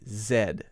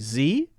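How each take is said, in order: First: The letter is said as zed. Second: The letter is said as zee. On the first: "Canadians say Z, Z E D" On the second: "Americans say Z"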